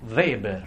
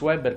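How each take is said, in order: First: The name begins with a V sound. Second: The name begins with a W sound. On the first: The speaker calls it right. "la pronuncia è V" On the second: The speaker calls it wrong. "non venitemi a dire Max Weber"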